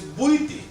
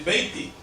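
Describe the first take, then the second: First: The first syllable is said as 'bui'. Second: The first syllable is said as 'bei'. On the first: This is the form used at home. "But the word good is buiti" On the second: This is the regional form used in one country. "Like in Guatemala, they say Beiti"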